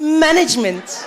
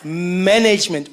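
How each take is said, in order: First: "Management" as MAN-ij-ment; high, slow "Management", stressing MAN; corrective pronunciation. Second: Slow "Management" as man-NAYJ-ment; African-accented attempt. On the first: Acted. Listener coaching [name], insistent high "Management" as MAN-ij-ment. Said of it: "it's management". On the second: [name] trying to copy, slow African-accented "Management", man-NAYJ-ment.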